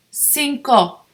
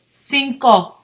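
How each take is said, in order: Both takes have the same delivery.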